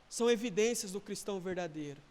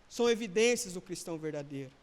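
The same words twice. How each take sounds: The two takes are said the same way.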